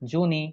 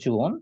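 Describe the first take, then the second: First: The word ends with an added ee vowel. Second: The word ends on the n sound. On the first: The speaker calls it wrong. "এটাকে আমরা জুনি বলতে পারবো না?" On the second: The speaker calls it right. "এটার উচ্চারণ হচ্ছে জুন"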